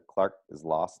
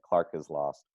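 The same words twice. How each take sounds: First: Clark and is are said separately. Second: The K of Clark runs into is. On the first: "You didn't connect the K of Clark onto is" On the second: "we would probably connect them"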